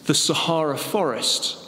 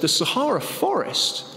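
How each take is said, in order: First: Said in the usual way. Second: Higher, disbelieving question; incredulous question. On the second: Acted. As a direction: echo it back in disbelief. Joke, boss questions the answer.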